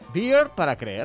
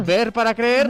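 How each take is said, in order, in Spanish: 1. La primera palabra suena como el inglés beer. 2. La primera palabra suena como el español ver. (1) "este Ver es beer, cerveza" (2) "Como lo leería uno en español"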